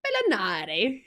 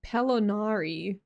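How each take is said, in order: First: Hammed-up Italian accent through a laugh; mock Italian accent, playfully overdone. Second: Said in the usual way. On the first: Shown as a demonstration. Streamer trying out an Italian surname, mock Italian accent. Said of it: "very vast knowledge of Italian language". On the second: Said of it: "That sounds pretty Italian".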